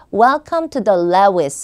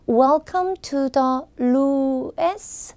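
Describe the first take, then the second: First: The name is said strongly and clearly. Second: The name is said weakly and indistinctly. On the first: The speaker calls it right. "무조건 좀 강하게 소리를 내서" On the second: The speaker calls it wrong. "약간 티미하게 답변하시는 분들 계시죠"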